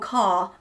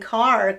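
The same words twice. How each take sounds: First: The final R sound is dropped. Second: The final R sound is clearly pronounced. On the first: "los ingleses dirían algo así como car" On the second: "los americanos dicen car"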